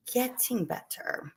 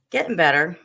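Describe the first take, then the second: First: "getting better" stretched out slowly and softer; slow, drawn-out repeat. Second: Said in the usual way. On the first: Real, not acted. Slower repeat of the same words.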